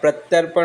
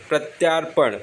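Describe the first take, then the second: First: The vowel after 'pratya' is a short 'a'. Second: The vowel after 'pratya' is a long 'aa'. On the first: The speaker calls it right. "प्रत्यर्पण होता है" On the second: The speaker calls it wrong. "प्रत्यार्पण नहीं होता"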